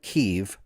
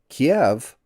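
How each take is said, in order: First: It is said the Ukrainian way, like Kih-yiv. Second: It is said the Russian way, like Kee-ev. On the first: "or as the Ukrainians call it" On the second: "Kiev is the Russian pronunci- pronunciation"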